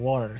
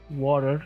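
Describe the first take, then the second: First: It is said in a non-American accent. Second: It is said in an American accent.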